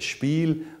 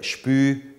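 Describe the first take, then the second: First: The final L is pronounced as a consonant. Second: The final L is turned into a vowel.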